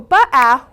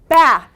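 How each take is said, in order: First: The consonant and vowel are said as separate sounds. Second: The consonant and vowel are blended into one syllable. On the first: The speaker calls it wrong. "we don't want to go ba-ah" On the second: The speaker calls it right. "we want ba"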